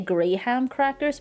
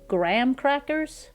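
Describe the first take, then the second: First: The H in graham is pronounced. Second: The H in graham is dropped. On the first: "I would say Graham crackers" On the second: "they say graham crackers. So I guess we're just skipping the H"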